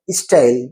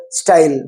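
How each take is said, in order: First: "style" with i before the st, istyle; added opening vowel on "style"; Hindi-speaker e prefix. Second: Said in the usual way. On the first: Shown as a demonstration. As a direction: say "style" as is-tyle. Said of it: "e, in front of it". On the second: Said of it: "They don't have style".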